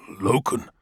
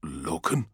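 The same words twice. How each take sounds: First: Said in the usual way. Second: Low, soft, hesitant query; a soldier's hushed call to his captain; hushed whisper. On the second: A narrator's reading. Sergeant softly calling his captain in a dark hall, hushed. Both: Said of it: "he whispers".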